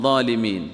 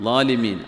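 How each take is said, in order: No difference in how they are said.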